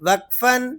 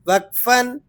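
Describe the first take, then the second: Both takes have the same delivery.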